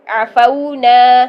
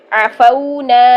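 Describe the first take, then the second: First: عفونا with the au glide drawn out very slowly; عفونا with a long, gliding au; stretched lean vowel. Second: عفونا read evenly at a slightly slow pace; عفونا with a plain, unstretched vowel; normal reading. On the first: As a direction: slowly stretch the fau in عفونا to about one and a half beats. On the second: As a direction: say عفونا once, steadily and clearly. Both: Shown as a demonstration. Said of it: "موڑ کے".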